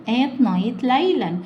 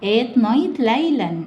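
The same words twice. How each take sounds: The two takes are said the same way.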